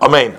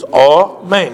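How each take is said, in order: First: The first vowel is quick and short. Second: The first vowel is full and long. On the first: The speaker calls it wrong. "not a main" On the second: The speaker calls it right. "under the aleph of a main is a regular komatz"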